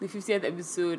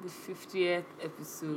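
First: It is said with high energy. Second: It is said with low energy.

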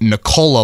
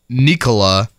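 First: The stress is on the second syllable. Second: The stress is on the first syllable. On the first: The speaker calls it right. "Lisa Salters went Nikola last night post-game, so I think I've got to go Cola" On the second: The speaker calls it wrong. "I think I have said it wrong as well. I think I've gone Nikola"

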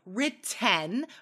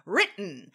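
First: The middle t is fully released. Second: The middle t is a glottal stop. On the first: The speaker calls it wrong. "We usually don't say written" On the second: The speaker calls it right. "We use that glottal stop"

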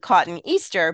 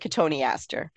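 First: It sounds like the two words cotton Easter. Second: It does not sound like cotton Easter. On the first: The speaker calls it wrong. "it's often something that's mispronounced because people sound it out and it's spelled like cotton Easter" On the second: The speaker calls it right. "but it's really Cotoneaster"

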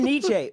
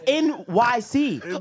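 First: The name is said as one word, like Nietzsche. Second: The name is said as the letters N-Y-C. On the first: The speaker calls it wrong. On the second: The speaker calls it right. "it was pronounced NYC"

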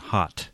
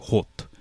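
First: The vowel is an open 'ah' sound. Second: The vowel is a rounded 'oh' sound. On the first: The speaker calls it right. "rather than hot" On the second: The speaker calls it wrong. "they might say hot"

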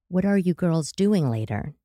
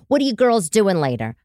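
First: It is said slowly in a lower voice. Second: It is said at a normal, quick pace.

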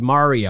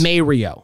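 First: The first syllable sounds like mare. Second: The first syllable sounds like may. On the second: "Like M-A-Y"

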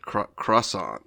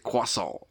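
First: It is said with a hard English R. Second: It is said with a French-style R. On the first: "hard on the R there" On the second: "I do it a more Parisian style"

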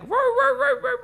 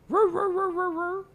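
First: The roaring is said more loudly. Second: The roaring is said fairly quietly.

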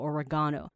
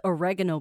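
First: It is said the British way. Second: It is said the American way. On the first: "英式语系的，他们会说oregano" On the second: "美国的话就是oregano 比较多咯"

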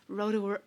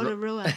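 First: It is said with an American accent. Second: It is said with a New Zealand accent.

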